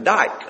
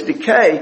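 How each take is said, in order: First: The word is said as one syllable. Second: The word is said as two syllables. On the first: The speaker calls it wrong. "We wouldn't pronounce it like that" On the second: The speaker calls it right. "But it's dikai"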